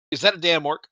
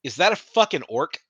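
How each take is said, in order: First: Mock serious. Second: Laughing quote. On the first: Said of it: "he said it so serious". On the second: Retold or imitated. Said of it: "he's like".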